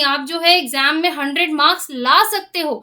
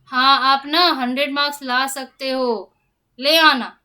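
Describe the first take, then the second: First: It is said with enthusiasm and encouragement. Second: It is said flatly, without any enthusiasm.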